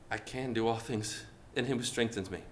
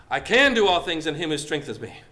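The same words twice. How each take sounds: First: Low, soft, unsure reading of the verse; timid, quiet declaration. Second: Said in the usual way. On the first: Shown as a demonstration. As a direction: say it meekly, almost to yourself.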